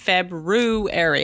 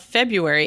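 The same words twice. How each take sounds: First: The first R is clearly sounded. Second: The first R is not clearly sounded.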